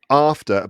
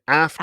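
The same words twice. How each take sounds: First: It is said in a British accent. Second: It is said in an American accent. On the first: "I'd say" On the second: "but you say"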